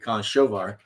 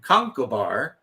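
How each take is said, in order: First: The middle is said with soft sh and v sounds. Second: The middle is said with a hard k sound. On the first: The speaker calls it right. "It should be Conshovar" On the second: The speaker calls it wrong. "I know it's the wrong pronunciation"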